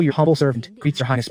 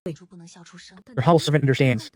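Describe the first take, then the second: First: A lightly hammed-up humble servant greeting; mock courtly bow. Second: Slow, drawn-out fake-humble reply; slow mock humility. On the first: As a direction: play it as an overly polite court formula. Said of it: "doing the whole ... bit". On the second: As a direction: stretch it out with sly politeness. Feigned humility to the prince.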